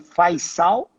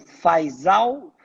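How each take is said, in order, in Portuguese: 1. A consoante do meio soa como um s surdo. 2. A consoante do meio soa como um z sonoro. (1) "o S tem é, som de dois S ou de ser cedilha" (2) "As pessoas falam Faisal"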